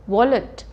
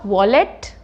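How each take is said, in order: First: The second syllable is short and compressed. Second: The second syllable is stressed and full. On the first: The speaker calls it right. "उसको थोड़ा सा compress करना है" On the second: The speaker calls it wrong. "It is not wallet"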